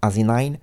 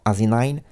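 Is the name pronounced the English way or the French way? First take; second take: English; English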